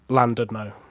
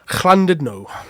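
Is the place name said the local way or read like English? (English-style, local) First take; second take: English-style; local. First: The name is read out like English spelling. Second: The name is said the local way. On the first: "like as you would say it in English" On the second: "I'm pretty sure that's how you pronounce it"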